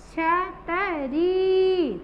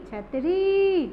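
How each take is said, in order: First: छतरी slowly as छ-त-री, री held long; drawn-out syllables. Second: छतरी run together, quicker, with री lengthened; joined word, long री. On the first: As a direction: break up छतरी and stretch री. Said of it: "लंबा खींचना है". (छतरी तोड़कर, री लंबी खींचकर) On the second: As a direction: say छतरी as one word, leaning on री. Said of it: "जोर देकर बोलना है". (छतरी एक साथ, री पर जोर) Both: Shown as a demonstration.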